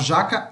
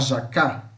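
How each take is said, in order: First: The stress is on the first syllable. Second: The stress is on the last syllable. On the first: This is the everyday Portuguese word. "A gente fala jaca" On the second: This is the Tupi form of the word. "Onde tá o acento é onde a gente fala mais forte"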